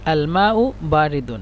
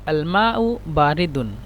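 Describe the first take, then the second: The two takes are said the same way.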